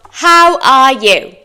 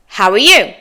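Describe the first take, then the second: First: Slow "How are you?", each word separate; "How are you?" with "are" fully sounded; careful full form. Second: "How are you?" as quicker "howuh-you"; native linked form. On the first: Teacher reviews phrases for extra practice, slow full form. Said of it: "go over those common phrases again". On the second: Teacher models for learners to repeat, linked form. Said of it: "Your turn". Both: Shown as a demonstration.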